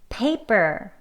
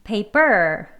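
First: The stress is on the first syllable. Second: The stress is on the second syllable. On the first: The speaker calls it right. "앞에를 강하게 읽어요" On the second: The speaker calls it wrong. "이게 D로 강세를 하게 되면"

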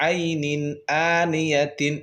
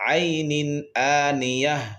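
First: The last word ends with a full 'tin' syllable. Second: The last word ends with a soft 'h' sound. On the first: The reading carries on without stopping. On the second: The reading stops at this word.

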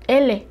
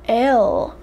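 First: The letter is said with a Spanish sound. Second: The letter is said with an English sound. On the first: "in Spanish is L" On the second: "But in English, it's L"

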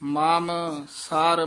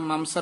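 First: The two words are said separately. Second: The two words are run together as one. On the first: The speaker calls it right. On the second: The speaker calls it wrong.

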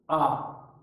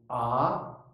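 First: The pitch falls sharply. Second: The pitch rises sharply. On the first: "第四声はですね、急激にぐっと下がる。" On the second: "第二声は急激にぐっと上がるですね。"

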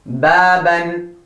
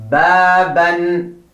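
Both takes have the same delivery.

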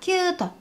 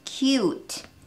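First: The vowel is said short and clipped. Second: The vowel is held a little longer. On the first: The speaker calls it wrong. "キュートではなく" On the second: The speaker calls it right. "少し長めに音をとっているの分かりますか？"

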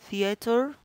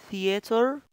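Both takes have the same delivery.

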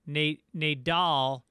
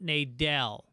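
First: The last syllable sounds like 'dahl'. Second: The last syllable sounds like 'dell'. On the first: The speaker calls it right. "His last name is pronounced Nadal" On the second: The speaker calls it wrong. "not Nadell"

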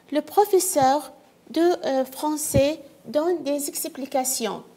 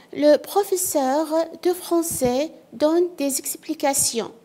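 No difference in how they are said.

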